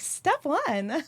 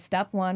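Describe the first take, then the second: First: It is said in a higher-pitched voice. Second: It is said in a lower, deeper voice. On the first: "I'm not like step one" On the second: "I guess I go lower"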